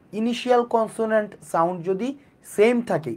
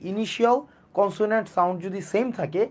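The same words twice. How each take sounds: The two takes are said the same way.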